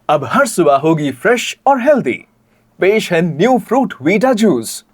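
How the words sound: It is delivered in a subtle, understated way.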